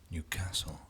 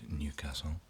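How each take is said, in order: First: It is said the local Newcastle way. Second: It is said the general UK way.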